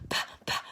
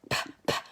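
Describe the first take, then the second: Both takes have the same delivery.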